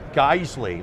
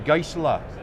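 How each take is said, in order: First: It ends with a 'lee' sound. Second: It ends with an 'uh' sound, like Porsche. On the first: This is the Americanized pronunciation. "they don't pronounce it Geisley, like hey guys, and Lee, like Bruce Lee" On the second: This is the German pronunciation. "they say Geisler ... just like Porsche, it has the E on the end"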